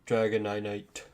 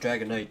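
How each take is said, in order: First: The name is pronounced in an odd way. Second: The name is pronounced in the usual way. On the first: The speaker calls it wrong. "It just feels so wrong saying that that way" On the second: The speaker calls it right. "that just sounds better"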